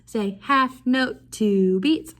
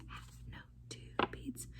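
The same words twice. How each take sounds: First: "half note, two beats" called out louder. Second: Whispered. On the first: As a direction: call it out to the class. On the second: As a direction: whisper "Half note, two beats". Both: Shown as a demonstration.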